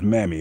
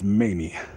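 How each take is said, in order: First: The first vowel is short, as in 'ham'. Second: The first vowel is long, as in 'may'. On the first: This is the earlier mistaken pronunciation. The speaker calls it wrong. "I thought it was Mammy" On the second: This is the name's actual pronunciation. The speaker calls it right. "It was Mamie"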